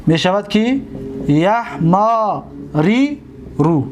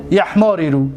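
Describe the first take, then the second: First: یحماری رو stretched out, every syllable held; teacher models یحماری رو drawn out; slow demonstration. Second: Said in the usual way. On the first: Shown as a demonstration. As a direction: sound out یحماری رو slowly for the class. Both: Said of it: "دیدید؟".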